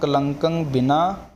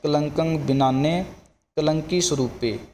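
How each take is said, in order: First: A pause comes before ne, joining it to the next word. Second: Ne is joined to the word before it. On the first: "ਉਚਾਰਨ ਕਰਨਾ ਕਲੰਕੰ ਬਿਨਾ, ਫਿਰ ਨੰਨਾ ਜਿਹੜਾ ਅੱਗੇ ਲੱਗੇਗਾ" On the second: "ਲਿਖਤੀ ਰੂਪ ਇੱਦਾਂ ਹੀ ਹੁੰਦਾ"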